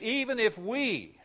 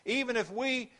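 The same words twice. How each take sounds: First: „Even if we” z naciskiem na EVEN, wyżej i wolniej; stress on we. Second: „even if we” powtórzone, EVEN uniesione wysoko; emphatic repeat. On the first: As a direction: draw out "Even if we" slowly, high. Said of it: "and the "we" includes Paul". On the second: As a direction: lift "even" high on the repeat. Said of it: "I don't care who it is". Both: Shown as a demonstration.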